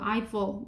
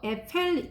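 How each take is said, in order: First: The name is said the English way. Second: The name is said in a non-English way. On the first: The speaker calls it right. "발음 이거 Eiffel 영어로" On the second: The speaker calls it wrong. "이거 에펠 아니라"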